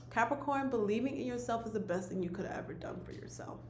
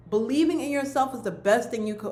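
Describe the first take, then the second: First: Hushed, moved whisper, voice dropping away; emotional whisper. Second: Said in the usual way. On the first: Real, not acted. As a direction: whisper it, overcome with real feeling. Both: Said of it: "oh wow, I'm getting emotional".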